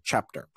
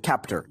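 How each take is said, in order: First: The word begins with a 'ch' sound. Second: The word begins with a 'k' sound. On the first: The speaker calls it right. "You say chapter" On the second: The speaker calls it wrong. "You also don't say captor"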